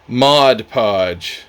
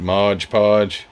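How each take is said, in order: First: The first word ends with a 'd' sound. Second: The first word ends with a 'j' sound. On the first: The speaker calls it right. "for the perfection perfectionist who wanted me to pronounce this right" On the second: The speaker calls it wrong. "I got corrected on one of the videos here recently because I called it Modge Podge"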